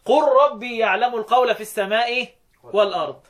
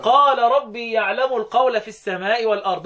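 First: Tajweed reading with قل. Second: Tajweed reading with قال. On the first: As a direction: recite with قل, short clipped vowel on قل, in measured Quran recitation. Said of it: "وبقية القراء". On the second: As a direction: recite with قال, long open vowel on قال, in measured Quran recitation. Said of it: "حفص وحمزة والكسائي يقرأوا يقولوا إيه". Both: Shown as a demonstration.

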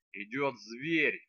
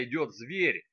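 First: Each word slow and deliberate; slow, measured. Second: Said in the usual way. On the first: Acted. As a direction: spell it out very slowly, staring her down. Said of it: "медленно глядя ... отчеканил некромант". (медленно, чеканя каждое слово)

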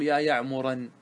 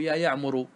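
First: يعمرا ending in -an, marked as wrong; wrong accusative ending. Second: يعمر ending in -u, the right form; correct nominative ending. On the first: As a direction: say يعمرا with tanween fatha. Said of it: "لا يجوز". (نطق خاطئ يا يعمرًا) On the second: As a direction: say يعمر with damma at the end. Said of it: "بل يجب أن تقول". (النطق الصحيح يا يعمرُ) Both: Shown as a demonstration.

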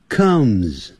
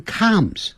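First: "comes" with a central "uh", like Mandarin 饿; uh vowel in comes. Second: "comes" with an open "ah", like "calms"; mispronounced comes. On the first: Teacher correcting the vowel for students, "comes" as "kumz". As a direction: round off "comes" with the short "kuh" sound. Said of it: "克，肚子饿的饿". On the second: Teacher warning students off a mistake, "comes" said as "cahms". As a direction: show the wrong vowel, "cahms" for "comes". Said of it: "不要念成comes". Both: Shown as a demonstration.

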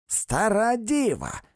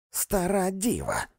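First: Higher, slow shout of Стара діва; high, slow shouted repeat; repeated insult. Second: High, slow bawl of Стара діва; higher, slow shouted old maid; bawled insult. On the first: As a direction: hammer the insult home. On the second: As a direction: fling the insult at him. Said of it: "горлала місіс Крик". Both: A narrator's reading.

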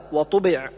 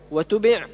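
First: وطبع with emphatic t; correct heavy ta. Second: وتبع with light plain t; thin the ط to ت in وتبع; ta thinned. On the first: Teacher correcting, heavy ط in وطبع. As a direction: thicken the ط in وطبع. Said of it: "والصواب". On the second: Teacher showing the error, light t in وتبع. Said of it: "أو جعل الطاء تاء". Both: Shown as a demonstration.

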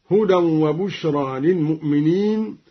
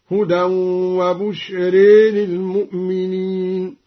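First: Said in the usual way. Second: "وبشر" ending in a long ee-leaning e, bushree; imala. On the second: Shown as a demonstration. Teacher demonstrating imala, "وبشر" chanted with final e. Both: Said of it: "قرأ بشرى بالإمالة هكذا".

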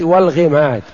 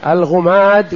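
First: والغماد said wal-ghimad, i-vowel after ghayn; kasra on الغماد. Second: الغماد said al-ghumad, u-vowel after ghayn; damma on الغماد. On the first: Teacher explaining both vowels, والغماد with kasra. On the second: Teacher explaining both vowels, الغماد with damma. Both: Shown as a demonstration. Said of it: "بضم الغين وكسر الغين".

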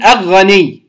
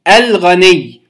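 First: "أغني" with the ل swallowed into the غ; لام مدغمة. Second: الغني with the ل distinctly sounded before غ; إظهار اللام. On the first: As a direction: drop the article's ل, going straight to غ in "أغني". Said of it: "لا أقول". (أغني دون إظهار لام التعريف) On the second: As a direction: articulate a vowelless ل in "الغني". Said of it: "فنقول الغني". (الغني بإظهار لام التعريف) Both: Shown as a demonstration.

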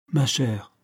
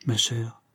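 First: Said in the usual way. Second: Whispered with worry; hushed whisper. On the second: Acted. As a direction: breathe the words softly to her. Mrs Pryor speaks softly, worried.

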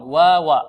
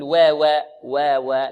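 First: واوا loud with plain open aa; light waw. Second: واوا flattened toward 'wewe'; واوا with too-fronted e-like vowels; over-thinned waw. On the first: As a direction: model واوا light but not flattened. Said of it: "الواوين مرققان". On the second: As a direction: show the error: squash the vowels of واوا. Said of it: "لا نقول". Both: Shown as a demonstration.

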